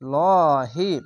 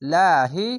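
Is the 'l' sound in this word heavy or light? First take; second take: heavy; light. First: The l sound is heavy and full. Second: The l sound is light and thin. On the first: The letter before it has a fatha or damma. "মোটা করে হবে লহি" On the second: The letter before it has a kasra. "পাতলা করে হবে লাহি"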